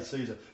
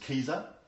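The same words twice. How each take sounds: First: The word begins with an s sound. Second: The word begins with a k sound. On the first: This is how it is said today. "we say Caesar" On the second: This is how it was originally said. "the original pronunciation was Caesar"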